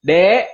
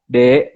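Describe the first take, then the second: First: Said in the usual way. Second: "Dek" called lower in pitch and louder; a low, firm "Dek" from a husband. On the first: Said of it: "kalau laki-lakinya manggil". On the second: Shown as a demonstration. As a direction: drop the voice for "Dek". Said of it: "kalau laki-lakinya rendah".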